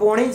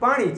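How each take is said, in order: First: The first vowel is an 'o' sound. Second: The first vowel is an 'aa' sound. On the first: "ઉત્તર ગુજરાતની પોણી પાણીની જગ્યાએ શું બોલે પોણી" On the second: "પોણી છે એ શું થયું પાણી છે"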